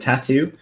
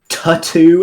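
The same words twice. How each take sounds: First: The word has its usual standard pronunciation. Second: The word has an altered, nonstandard pronunciation. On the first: The speaker calls it right. "instead of tattoo" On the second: The speaker calls it wrong. "Tattoo instead of"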